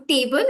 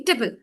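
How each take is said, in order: First: "table" as a whole TAY-bul; wrong full vowel. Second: "table" weakened to tuh-bul; reduced pronunciation. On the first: Teacher shows what to avoid, full-vowel pronunciation. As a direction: give "table" its full long A. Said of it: "It is not supposed to be a whole". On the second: Teacher shows the right word ending, reduced vowel. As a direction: swallow the A of "table" into a short weak vowel. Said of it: "It's supposed to be". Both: Shown as a demonstration.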